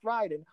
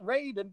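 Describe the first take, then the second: First: The first syllable sounds like 'rye'. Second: The first syllable sounds like 'ray'. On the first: The name follows the Japanese word for thunder. The speaker calls it right. "it should be pronounced Raiden" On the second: The name follows the film's spelling. The speaker calls it wrong. "all of them pronounce it Raiden for some reason"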